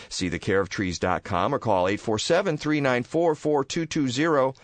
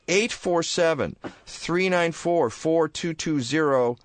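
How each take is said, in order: First: Said in the usual way. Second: "Eight four seven, three nine four, four two two zero" slow, each digit spaced and raised; slow, deliberate number. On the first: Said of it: "repeats number slowly". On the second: Shown as a demonstration. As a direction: spell the number out slowly for listeners. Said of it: "first read of number".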